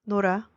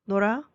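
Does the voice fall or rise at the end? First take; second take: fall; rise. First: The pitch falls at the end. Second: The pitch rises at the end. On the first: It states that someone plays. "if you lower the intonation at the end, it becomes a statement" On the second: It asks whether someone plays. "if you raise the intonation, it becomes a question"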